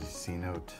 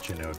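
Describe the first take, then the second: First: The name begins with an 's' sound. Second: The name begins with a 'ch' sound. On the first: "I'm going to say C-Note" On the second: "I think it's probably pronounced like Chinote"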